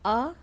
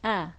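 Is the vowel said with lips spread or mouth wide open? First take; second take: open; spread. First: The vowel is said with the mouth opened too wide. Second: The vowel is said with lips spread in a smile. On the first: The speaker calls it wrong. "Kalau a itu mulutnya e, ke kebesaran ya" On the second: The speaker calls it right. "senyumkan dulu ya"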